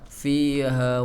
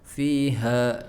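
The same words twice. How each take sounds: First: The first vowel is dragged out long. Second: The first vowel is short, h from the chest. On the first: The speaker calls it wrong. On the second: The speaker calls it right. "dipaksakan di dadanya"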